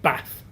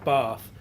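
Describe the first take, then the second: First: Bath is said with a Yorkshire accent. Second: Bath is said with a boarding-school accent. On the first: This is how the speaker said it at home. "I wouldn't lose my pronunciation of Bath" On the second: This is how the speaker said it after school. "when I uh, left, I was saying Bath"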